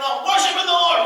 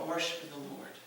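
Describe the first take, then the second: First: It is shouted loudly. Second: It is said quietly and calmly.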